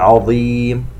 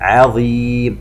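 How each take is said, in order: First: The ain is pronounced heavy and emphatic. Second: The ain is pronounced light, not emphatic. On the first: The speaker calls it wrong. "لا نقول" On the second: The speaker calls it right. "وحرف العين من أحرف الاستفال"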